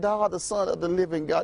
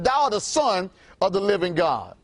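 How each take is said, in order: First: It is said weakly and timidly. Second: It is said firmly and with strong emphasis. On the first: The speaker is unsure of the claim. The speaker calls it wrong. "You can't say that, wimpy" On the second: The speaker is certain of the claim. The speaker calls it right. "you have to know with a surety"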